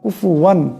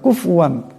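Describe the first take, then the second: First: There is a u vowel after the f. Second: There is no vowel after the f. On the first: The speaker calls it right. "পেশ পড়তে হবে" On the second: The speaker calls it wrong. "এখানে ফাটাকে সাকিন করিয়া দেয়"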